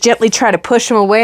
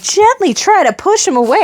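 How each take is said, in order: First: Said in the usual way. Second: High-pitched disbelieving question; retold indignant disbelief; incredulous echo. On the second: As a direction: throw GENTLY back high, in mock outrage.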